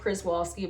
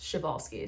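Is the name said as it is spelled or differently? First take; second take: as spelled; differently. First: The name is said the way it looks written. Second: The name is said unlike its written form. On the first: The speaker calls it wrong. "It's spelled like Przewalski, but a lot of people say it wrong" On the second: The speaker calls it right. "I found out it's pronounced Przewalski"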